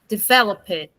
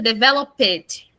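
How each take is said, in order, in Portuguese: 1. O som final do D é leve e suave. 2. O som final do D é fortemente enfatizado. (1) "a gente não dá ênfase no D no final" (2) "não fica developed"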